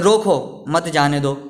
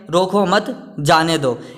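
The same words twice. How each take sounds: First: There is a pause right after the first word. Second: It is read straight through without a pause. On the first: Stop him and do not let him go. "अगर अपन ऐसे पढ़े" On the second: The sentence has no clear meaning. "इस वाक्य का कोई अर्थ नहीं निकल रहा है"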